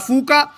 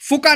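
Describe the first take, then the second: First: The first vowel is long. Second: The first vowel is short. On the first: The speaker calls it right. "वाव यूज किया" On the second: The speaker calls it wrong. "फुका नहीं कहा"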